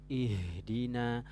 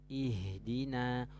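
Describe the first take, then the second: Both takes have the same delivery.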